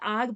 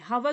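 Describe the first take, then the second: First: The word begins directly with a vowel. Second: The word begins with an h sound. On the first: The speaker calls it right. "एच silent होता है, आग पढ़ते हैं" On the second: The speaker calls it wrong. "हवर नहीं पढ़ना"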